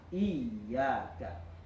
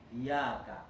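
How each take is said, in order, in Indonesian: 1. Konsonan tengahnya ditekan dan rangkap. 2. Konsonan tengahnya ringan dan tunggal. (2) "dengarannya tuh iyaka"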